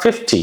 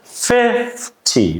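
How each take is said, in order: First: The stress is on the second syllable. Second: The stress is on the first syllable. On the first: The speaker calls it wrong. "It's not fifty" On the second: The speaker calls it right. "You stress more on letter F, the first F"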